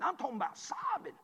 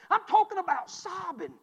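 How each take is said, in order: First: Said in the usual way. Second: "talking" hit harder and louder; emphatic repeat, "talking" leaned on. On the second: Real, not acted. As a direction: repeat it with more force on "talking".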